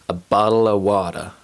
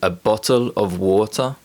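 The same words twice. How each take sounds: First: The t sounds are quick tongue taps. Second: The t sounds are fully pronounced.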